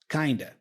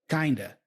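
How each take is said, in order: No difference in how they are said.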